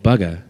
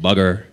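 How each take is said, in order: First: It is said in a British accent. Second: It is said in an American accent.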